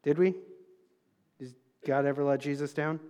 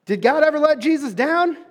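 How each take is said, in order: First: Asked softly and low to the crowd; a quiet, low question to the congregation. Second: Higher and louder, calling to the crowd; preaching loudly. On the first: Preacher asks the congregation softly, low and quiet. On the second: Preacher pushes the congregation to answer, loud and high. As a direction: throw the question out with full force. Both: Shown as a demonstration. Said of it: "I'm preaching my heart out up here".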